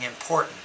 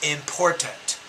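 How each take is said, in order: First: The t is replaced by a glottal stop. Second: The t is released as a clear t sound. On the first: The speaker calls it right. "We just say" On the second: The speaker calls it wrong. "you're trying to pronounce those as T's"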